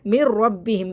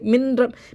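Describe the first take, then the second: First: The n merges into a doubled r, without nasal sound. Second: The n is pronounced separately before the r. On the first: The speaker calls it right. "नून को रा से मिला तो रहे हैं लेकिन गुन्ना नहीं करेंगे" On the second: The speaker calls it wrong. "मिन ऐसे नहीं पढ़ना है"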